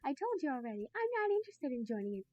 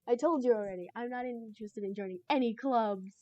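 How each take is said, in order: First: It is said in a put-on Sayori voice. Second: It is said in the speaker's normal voice.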